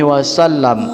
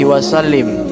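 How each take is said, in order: First: The last vowel is an 'a' sound. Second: The last vowel is an 'i' sound. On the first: The speaker calls it right. "Yang benar" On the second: The speaker calls it wrong. "Biasanya orang di sini salah ya dalam melafalkannya"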